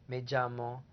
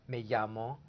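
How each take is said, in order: Both takes have the same delivery.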